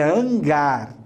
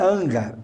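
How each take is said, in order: First: The stress is on the last syllable. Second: The stress is on the first syllable. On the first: The speaker calls it right. "A sílaba mais forte é a última" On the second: The speaker calls it wrong. "não é hangar"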